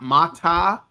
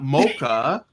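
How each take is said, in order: First: The middle consonant is a t sound. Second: The first vowel is o, then a k sound. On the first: "not mata" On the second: "not mocha"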